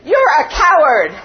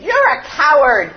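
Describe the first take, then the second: First: Loud shout thrown back from far off; distant echo. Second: Put-on loud angry shout from the boy; angry boy yelling at the echo; angry scream. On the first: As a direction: sound like the mountain answering. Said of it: "And the voice answered". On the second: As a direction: hurl it at the mountain. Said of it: "so he screamed". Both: A narrator's reading.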